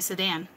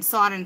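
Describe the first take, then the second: First: It is said with an American pronunciation. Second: It is said with a Middle Eastern pronunciation. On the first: The speaker calls it wrong. "she did not say Sudan at all" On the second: The speaker calls it right. "she kept saying Sardin"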